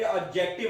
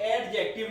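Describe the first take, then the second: First: No d sound is heard before the j. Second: A d sound is heard before the j. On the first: The speaker calls it right. "डी silent आ रहा है" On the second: The speaker calls it wrong. "एडजेक्टिव नहीं पढ़ना"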